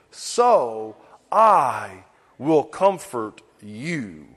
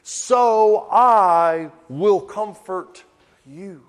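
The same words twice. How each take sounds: First: Put-on slow, low and gentle, like soothing a child; tender promise. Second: Slow, gentle reassurance with I leaned on; tender promise. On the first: Preacher reading God's words to a weeping child, tender and slow. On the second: Acted. Preacher repeating God's promise to his congregation, slow and tender. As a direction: savour each word of comfort.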